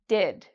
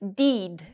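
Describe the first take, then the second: First: The vowel is a short, relaxed I sound. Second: The vowel is a long, tense E sound. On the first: The speaker calls it right. "So we have here a short I sound" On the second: The speaker calls it wrong. "like where they make a very long E sound. But that's not correct"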